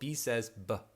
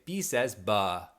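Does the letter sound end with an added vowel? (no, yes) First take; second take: no; yes. First: The letter sound is a bare consonant. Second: The letter sound has an added vowel. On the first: The speaker calls it right. "instead of saying" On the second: The speaker calls it wrong. "they'll add a sound to the end of it"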